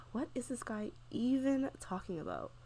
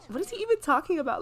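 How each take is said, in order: First: Soft, weary sigh into the question; bored. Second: High-pitched incredulous question, half laughing; mock-bored disbelief. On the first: Acted. Player voicing her bored Sim during opponent's speech, bored. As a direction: sigh and sound bored out of your mind. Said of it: "She's so bored. She's like". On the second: Player voicing bored Sim at opponent's debate, amused disbelief. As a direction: imitate baffled boredom, pitched up. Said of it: "She's so bored".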